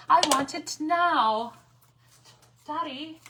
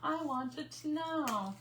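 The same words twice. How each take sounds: First: Spoiled brat demanding it now, louder and higher; hammed-up bratty child whining for Daddy; Veruca Salt impression. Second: Slower, higher, drawn-out bratty whine; mock spoiled girl whining, slow and nasal-free; Veruca Salt again. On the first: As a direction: stamp your foot like a spoiled rich girl. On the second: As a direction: stretch every word like a sulking spoiled child. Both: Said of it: "Yes, Veruca".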